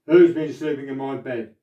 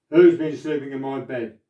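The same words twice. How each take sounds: First: It is said in a great big voice. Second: It is said in a great big voice.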